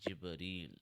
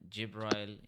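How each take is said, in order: First: The name is said the Arabic way. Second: The name is said the English way. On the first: "Jibreel is the correct pronunciation of the word in Arabic" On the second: "Jibrail is in English"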